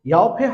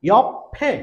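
First: Louder ইয়ফে said "yo-phe", p not doubled; wrong pronunciation. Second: Loud, high ইয়ফে as "yop-phe"; correct pronunciation. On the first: Teacher repeating what not to say, wrong pronunciation. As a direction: read ইয়ফে with one light p sound. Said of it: "হবে না". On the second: Teacher modelling the doubled consonant, correct pronunciation. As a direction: stop on the p in ইয়ফে, then "phe". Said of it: "ইয়ফে হবে না". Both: Shown as a demonstration.

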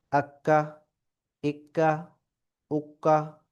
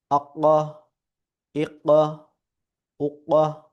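First: Light k in আক্কা, ইক্কা, উক্কা, tongue forward of the uvula; small kaf. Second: Heavy uvular q in আক্কা, ইক্কা, উক্কা; big qaf. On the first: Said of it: "ছোট কাফ". (আক্কা, ইক্কা, উক্কা-তে ছোট কাফের হালকা ক উচ্চারণ) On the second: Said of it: "বড় কাফ". (আক্কা, ইক্কা, উক্কা-তে বড় কফের ভারী, গভীর উচ্চারণ) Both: Shown as a demonstration.

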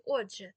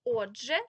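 First: «отже» loud, with weight on the first О; stress variant. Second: «Отже» loud, with weight on the final -ЖЕ; stress variant. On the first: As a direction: lean on the first syllable of «отже». (наголос на перший склад: «Отже») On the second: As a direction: lean on the last syllable of «Отже». (наголос на останній склад: «отжЕ») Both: Shown as a demonstration. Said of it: "Отже чи отже теж".

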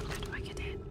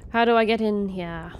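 First: Voiceless whispered question to herself. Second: Said in the usual way. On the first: Real, not acted. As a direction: breathe the question out with no voice. Whispering while trying to enter.

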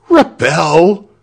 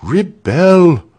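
First: Loud, high, rising exclamation; crowd cry. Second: Loud, firm, falling exclamation; firm repeat. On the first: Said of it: "cried everybody". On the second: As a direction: repeat it with resolve, pitch falling at the end. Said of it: "repeated Walter firmly". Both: A narrator's reading.

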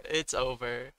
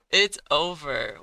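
First: Said in the usual way. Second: Loud, slowed, falling it's over; louder, drawn-out lament; despairing cry. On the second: Real, not acted. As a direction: call it out like defeat is sealed. Losing the battle.

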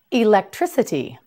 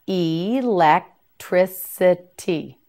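First: Said in the usual way. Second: "Electricity" slowly as ee, lek, tri, si, tee; syllable by syllable. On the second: Shown as a demonstration. Teacher modelling "Electricity" for learners, syllable by syllable. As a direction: give each syllable of "Electricity" its own beat, slowly.

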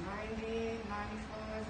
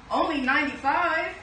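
First: Much softer, counting under the breath; hushed counting. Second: Louder and higher, alarmed exclamation; dismayed surprise. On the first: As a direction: trail off while counting heads. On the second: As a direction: realize puppies are missing. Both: Acted. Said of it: "quiet counting then exclaiming".

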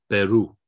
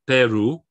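First: "Peru" as pe-RU, loud on the end; final-syllable stress. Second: "Peru" as PE-ru, weight up front; loud model of "Peru" stressed on the first syllable; wrong first-syllable stress. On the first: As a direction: land hard on RU in "Peru". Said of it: "It's gonna be on the final syllable". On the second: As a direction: hit PE in "Peru", leaving ru light. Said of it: "which it would be without the accent". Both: Shown as a demonstration.

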